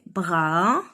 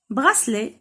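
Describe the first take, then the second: First: Syllable by syllable. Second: Said in the usual way. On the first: Shown as a demonstration. Teacher sounding out a word for children, براسلي broken in three. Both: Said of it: "تخوا سيلاب".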